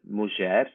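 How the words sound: It is said with the Ladino pronunciation. "which in Ladino is"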